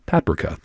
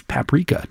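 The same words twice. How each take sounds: First: "paprika" pronounced the British way; British pronunciation. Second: "paprika" said the usual American way; American pronunciation. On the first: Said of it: "I said it like the British pronunciation". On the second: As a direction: say "paprika" as Americans do, not British. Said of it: "like the British pronunciation. It's paprika, not". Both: Shown as a demonstration.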